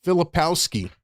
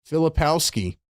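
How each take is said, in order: Both takes have the same delivery.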